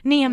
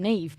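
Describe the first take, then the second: First: The name is said with a short vowel and final m. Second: The name is said with a long vowel and final v. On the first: The spelling is read literally by someone unfamiliar with it. The speaker calls it wrong. "I'm like, mm, Nim" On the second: This is how people in Ireland know to say it. The speaker calls it right. "they know that to pronounce it as"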